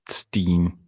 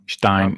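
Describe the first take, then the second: First: The vowel sounds like 'ee'. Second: The vowel sounds like 'eye'. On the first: The speaker calls it wrong. "not Steen" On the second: The speaker calls it right. "Stein, not Steen"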